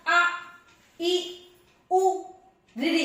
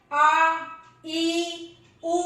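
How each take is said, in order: First: Short clipped vowel sounds आ ई उ ऋ; quick short vowel demo. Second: Long drawn vowels आ ई उ held twice as long; long vowel demo, held. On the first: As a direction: say each vowel आ ई उ ऋ briefly. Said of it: "कितना कम समय लगा". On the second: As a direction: stretch each vowel आ ई उ. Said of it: "ज्यादा समय लगा, दुगना समय लगा". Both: Shown as a demonstration.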